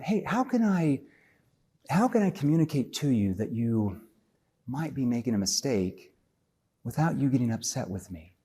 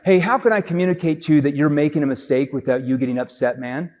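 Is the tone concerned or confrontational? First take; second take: concerned; confrontational. First: It sounds soft, concerned and empathetic. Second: It sounds blunt, pushy and confrontational.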